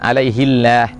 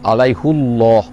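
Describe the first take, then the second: First: Allah follows an i vowel and sounds light. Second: Allah follows a u vowel and sounds heavy. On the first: The name of God sounds low. The speaker calls it wrong. "bukan alaihillah" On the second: The name of God is magnified as high. The speaker calls it right. "dibaca dengan alaihu, ... supaya Allah tu jadi terjadi tinggi"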